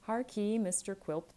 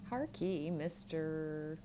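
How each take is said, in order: First: Harkee said louder and firmer; louder address. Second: An abrupt, curt call for attention. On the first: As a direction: repeat the call, pushing it harder. Young man repeats the address. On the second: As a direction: cut in abruptly, then drag out Mister. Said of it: "said abruptly". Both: Acted.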